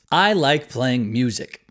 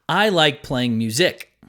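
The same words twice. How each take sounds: First: Music carries its usual, natural syllable stress. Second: Music carries stress on its other syllable. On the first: The speaker calls it right. "listen to the word music in this sentence" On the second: The speaker calls it wrong. "let me switch the stress of music"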